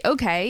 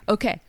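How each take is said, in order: First: Said in the usual way. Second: "okay" cut short and abrupt; "okay" with a sudden, short ending; abrupt French okay. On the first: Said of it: "in French, when you say". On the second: Shown as a demonstration.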